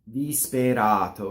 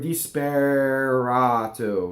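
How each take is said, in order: First: A closed E and a single flipped R tap. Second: An American R colors the vowel before it. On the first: The speaker calls it right. "not r, not rolled" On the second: The speaker calls it wrong. "I made a really strong American accent"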